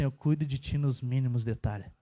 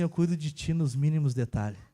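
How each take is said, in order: First: Much lower, hushed voice of God; God's voice. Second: Lower, calm voice of God; God's voice. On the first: God reassures him again, deep hushed voice. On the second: God reassures the tired father, low calm voice. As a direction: speak as God gently reassuring. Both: Retold or imitated. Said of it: "Deus falou assim".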